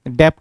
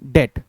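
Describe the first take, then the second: First: A b or p sound is heard before the t. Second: No b or p sound is heard before the t. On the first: The speaker calls it wrong. "डेप्ट नहीं" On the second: The speaker calls it right. "बी silent होता है"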